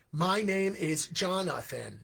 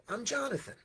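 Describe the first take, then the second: First: Slow, overly formal "My name is Jonathan."; stiff formal introduction. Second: Said in the usual way. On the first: Retold or imitated. Learner introduces himself with textbook stiffness, slow. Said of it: "Why are you speaking like that". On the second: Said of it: "Just say".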